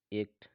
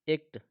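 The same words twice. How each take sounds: First: एक्ट said as ekt, correct way; एक्ट with the proper vowel; right form. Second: एक्ट said as ekt, short e, wrong way; एक्ट with a short e vowel; wrong form. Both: Shown as a demonstration.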